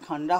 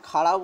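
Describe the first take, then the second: First: The name has an 'nd' sound in the middle. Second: The name has a flapped 'r' without 'nd'. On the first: The speaker calls it wrong. "খান্ডরা হবে না" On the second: The speaker calls it right. "খাড়া উ- উচ্চারণটা হবে"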